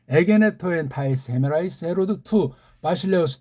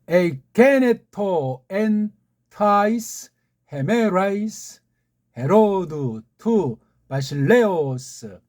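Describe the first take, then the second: First: The words are read at a quicker, flowing pace. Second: The words are read slowly and deliberately. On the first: "쭉 한번 제가 읽을 테니까" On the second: "천천히 한번 다시 다시 읽어드리겠습니다"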